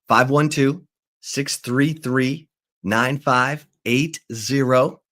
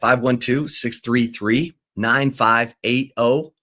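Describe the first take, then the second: First: The number is said at a slower pace. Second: The number is said at a faster pace.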